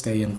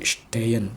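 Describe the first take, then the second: First: The word begins with a plain s sound. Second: The word begins with an sh sound. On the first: An Indonesian speaker would say it this way. The speaker calls it wrong. "orang Indonesia bilangnya Stehen" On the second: A German speaker would say it this way. The speaker calls it right. "S T itu jadi sh gitu"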